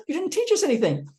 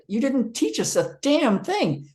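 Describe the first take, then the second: First: Cleaned-up complaint. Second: Higher and slow, aggrieved; retold grumble with damn; indignant complaint. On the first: Retold or imitated. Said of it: "I didn't say damn". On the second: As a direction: drag it out in protest. Complaining about seminar.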